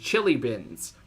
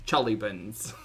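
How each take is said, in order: First: The first vowel is a clear 'i' sound. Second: The first vowel is shifted toward an 'uh' sound.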